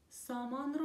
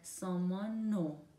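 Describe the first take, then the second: First: The r sound of ro is pronounced separately. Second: The r sound is dropped, leaving only o.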